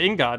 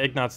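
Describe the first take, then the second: First: The word begins with 'in', then 'got'. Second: The word begins with 'ig', then 'not'. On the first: The speaker calls it right. "But ingot is" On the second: The speaker calls it wrong. "ignot's definitely not correct"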